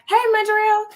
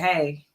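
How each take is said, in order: First: The greeting sounds cheerful and friendly. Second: The greeting sounds annoyed and full of attitude.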